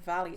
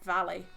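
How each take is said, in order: First: The word is said with a plain English vowel. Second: The word is said with a Welsh vowel sound. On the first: "rather than Valley" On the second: "the sound on Valley"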